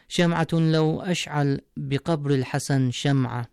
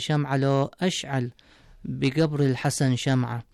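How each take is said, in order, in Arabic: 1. يُقرأ بنطق الفصحى. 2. يُقرأ بنطق اللهجة العامية.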